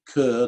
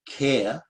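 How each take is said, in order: First: The name is said the speaker's own way. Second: The name is said the Scottish way.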